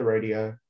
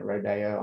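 First: Rodeo said as RAY-dee-oh; rodeo, first try. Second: Rodeo in an Australian accent. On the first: Real, not acted. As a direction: rodeo with a long ay in the first syllable. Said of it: "am I even saying it correct?". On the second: Shown as a demonstration. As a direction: rodeo said roh-DAY-oh, Australian style. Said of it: "That's my Australian accent".

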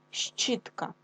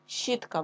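First: Щітка whispered slowly as ш-ч-ітка, both sounds drawn out; soft sounded-out word. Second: Said in the usual way. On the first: Shown as a demonstration. Teacher to class, whispering Щітка to show its sounds. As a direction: breathe out Щітка showing the two sounds ш and ч. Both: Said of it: "буква Щ позначає два звуки".

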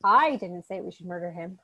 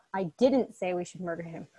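First: I hit hardest at the start; stress on I. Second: Didn't punched, rest level; stress on didn't. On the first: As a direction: punch the word I. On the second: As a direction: hit didn't hard. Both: Shown as a demonstration. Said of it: "depending on the emphasis".

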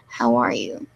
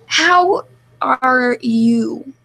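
First: Said in the usual way. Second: Very slow, drawn-out question, louder; laboriously spelled-out show of asking; exaggerated asking. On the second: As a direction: stretch every word out for emphasis. Mock-earnest question demanded by the group.

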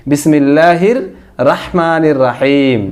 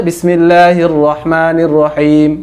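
First: Slow "রাহিম" with open raa; wrong Bangla reading. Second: Drawn-out "রহমানির" with rounded ro; correct Arabic. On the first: Teacher quoting the old Bangla-script reading, mispronounced. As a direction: draw it out, opening the r of "রাহিম" to raa. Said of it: "ভুল উচ্চারণ". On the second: Teacher showing the bismillah as Arabic requires, correct pronunciation. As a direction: recite slowly, rounding the r of "রহিম" to ro. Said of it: "আরবিতে উচ্চারণ করতে হলে". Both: Shown as a demonstration.

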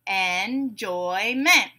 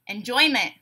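First: "Enjoyment" very slowly, en-joy-ment; syllable by syllable. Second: Said in the usual way. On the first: Shown as a demonstration. Teacher breaking a word into syllables, beat by beat. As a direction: stretch "Enjoyment" into three separate beats. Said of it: "we'll break it into syllables". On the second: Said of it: "I'll say a word".

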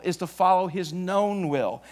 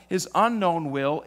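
First: "known" given the weight; stress on known. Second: "unknown" drawn out and leaned on; stress on unknown. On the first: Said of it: "as we follow his known will". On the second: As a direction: land on "unknown". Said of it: "the unknown will of God". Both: Shown as a demonstration.

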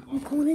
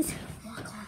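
First: Said in the usual way. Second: Whispered corner; whispering. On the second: Real, not acted. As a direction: drop to a breathy whisper. Same words whispered.

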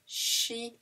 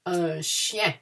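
First: "Chien" said softly, the I gliding into a nasal E; a soft, careful "Chien"; quiet model repeat. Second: Slow, clear classroom "Un chien"; "chien" with the I gliding into a nasal E, "shyen"; teacher's model word. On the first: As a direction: repeat "Chien" for the class, softer. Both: Shown as a demonstration. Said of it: "the I comes before the E".

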